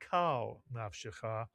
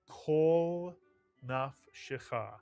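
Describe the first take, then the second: First: The first word has an 'ah' vowel. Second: The first word has an 'aw' vowel. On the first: The speaker calls it wrong. "not pronounced as a patach ah" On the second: The speaker calls it right. "retains the aw sound"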